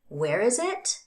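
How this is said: The voice rises at the end. The speaker is checking that information again. "I can use a rise pattern instead"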